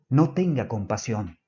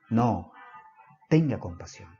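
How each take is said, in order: First: It is said without a pause after 'no'. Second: It is said with a pause after 'no'.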